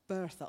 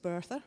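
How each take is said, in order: First: Said in the usual way. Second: Bertha with a rolled Southwest r at the end; a light West Country Bertha, r sounded; Southwest accent. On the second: Shown as a demonstration. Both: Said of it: "I always want to say it with a bit of a Southwest accent".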